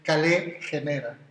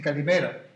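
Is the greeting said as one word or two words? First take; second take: two words; one word. First: It is said as two separate words. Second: It is said as one run-together word. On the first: This is the classical school reading. "en el griego que a mí me enseñaron, el clásico, que es leerlo como si fuera en castellano" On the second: This is how people greet you in Greece today. "en griego, cuando te saludan, te dicen"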